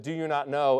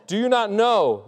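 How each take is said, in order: First: Said in the usual way. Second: Higher and louder, laughing, falling hard on "not"; "Do you not know?" punched high with a laugh; emphatic question. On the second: Shown as a demonstration. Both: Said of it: "a great way to start an emphatic statement".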